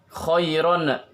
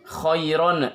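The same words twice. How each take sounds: No difference in how they are said.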